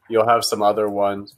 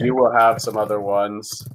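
First: The words 'you will' are contracted to 'you'll'. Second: The words 'you will' are said in full. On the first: "I said you'll have some other ones" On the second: "so instead of saying you will have some other ones"

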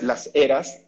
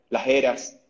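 First: The s is fully pronounced as a hiss. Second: The s is aspirated, like a soft h. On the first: It sounds Mexican. The speaker calls it wrong. "No digas las eras, porque no, eso sería mexicano" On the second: It sounds Peruvian. The speaker calls it right. "trata de aspirarte las eses"

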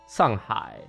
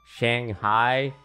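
First: The name is said with a Chinese pronunciation. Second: The name is said with an English pronunciation.

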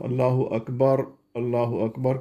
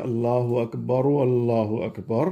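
First: It is said quickly, the middle vowel blurred. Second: It is said carefully, the middle vowel clear. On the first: The speaker calls it wrong. "अगर मैं इसको तेज़ी से बोलूँगा" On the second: The speaker calls it right. "दरम्यान में वाला जो अकबर का जो पेश थी उसको हमने एहतियात से बोला"

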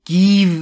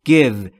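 First: The vowel is long and tense. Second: The vowel is short and lax. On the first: The speaker calls it wrong. "Give نیست" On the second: The speaker calls it right. "ای کوتاه بین ای و ا"

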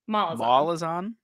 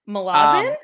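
First: The stress is on the first syllable. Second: The stress is on the last syllable. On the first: This is an unusual pronunciation. "I just put the emphasis on the mall instead of the zon" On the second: This is an accepted pronunciation. "the accepted ones apparently are Malazan"

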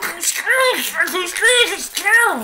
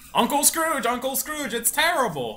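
First: It is said in a Huey, Dewey or Louie voice. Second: It is said in his normal voice.

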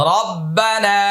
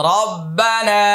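No difference in how they are said.

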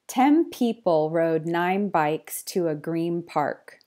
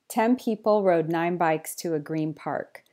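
First: The sentence is read at a slow pace. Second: The sentence is read at a fast pace. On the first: "slower this time" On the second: "just at a fast, natural pace again"

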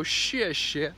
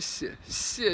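First: The first sound is a plain English sh. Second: The first sound blends s with sh. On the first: The speaker calls it wrong. "you wouldn't go xie xie, right? ... they go xie xie because they're thinking shh" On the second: The speaker calls it right. "you combine it with the sh sound or something"

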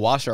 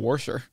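First: It is said plainly without an added R. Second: It is said with an added R sound.

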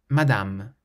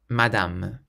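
No difference in how they are said.

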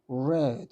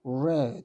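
First: The vowel is a short eh sound. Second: The vowel is a short eh sound.

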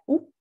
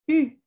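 First: A back rounded 'oo' vowel. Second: A front 'ee' vowel with rounded lips. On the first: "Nuestra U normal sería U" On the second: "pero en este caso el sonido es U"

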